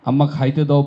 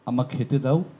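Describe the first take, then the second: First: It uses the regional dialect verb form. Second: It uses the standard Bangla verb form. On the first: The speaker calls it wrong. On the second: The speaker calls it right.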